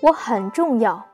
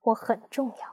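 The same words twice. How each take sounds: First: It is said loudly, like an announcement. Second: It is said a little louder.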